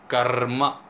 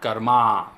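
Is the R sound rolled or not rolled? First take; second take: rolled; not rolled. First: The R sound is rolled. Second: The R sound is not rolled. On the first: The speaker calls it right. "you have to roll the R and say karma" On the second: The speaker calls it wrong. "not karma"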